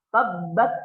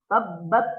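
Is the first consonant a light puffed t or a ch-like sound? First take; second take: light t; light t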